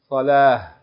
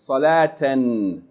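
First: The word ends with a soft h sound. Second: The word ends with a t and n sound. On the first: Reading stops on the word. "if you stop on it, you're going to say" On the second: Reading continues past the word. "If you keep reading, you pronounce it like regular Tanween"

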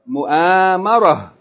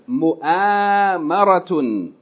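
First: The word ends with a soft 'h' sound. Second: The word ends with a full 'tun' syllable. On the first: The reader stops on the word. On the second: The word is read without stopping on it.

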